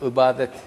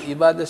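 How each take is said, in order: First: The first vowel is a back 'ı' sound. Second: The first vowel is a front 'i' sound. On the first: This form leads back to the word's origin. The speaker calls it right. "Aslı ı ile söylenmesi gerekir" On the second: This form cannot lead back to the word's origin. The speaker calls it wrong. "İ harfiyle söyleriz, ibadet diye"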